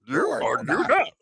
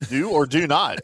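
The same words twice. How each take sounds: First: It is said in a put-on character voice. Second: It is said in a normal speaking voice. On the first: "when I do my Yoda voice" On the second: "you got to say it in the in the Yoda voice"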